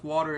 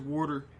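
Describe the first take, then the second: First: The word is said in a plain accent. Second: The word is said in a New York accent.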